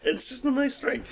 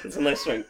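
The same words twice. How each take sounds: First: Laughing. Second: Said in the usual way. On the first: Real, not acted. Laughing while saying it.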